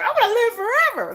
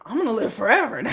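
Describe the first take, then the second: First: High gleeful declaration; gleeful boast. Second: Said in the usual way. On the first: Retold or imitated. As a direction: announce it with glee. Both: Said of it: "Tell our kids that".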